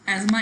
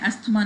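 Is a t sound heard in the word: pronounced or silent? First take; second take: silent; pronounced. First: The word is said with no t sound. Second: The word is said with a t sound. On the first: The speaker calls it right. "एजमा इसको pronounce करते हैं, टी is silent हेयर" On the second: The speaker calls it wrong. "एस्थमा नहीं pronounce करते"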